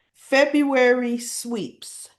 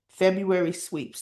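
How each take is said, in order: First: February sweeps stretched slow, high and loud; drawn-out emphasis. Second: Said in the usual way. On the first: Shown as a demonstration. Announcing the big sweeps month, slow and emphatic. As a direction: lean hard on February sweeps, slowly.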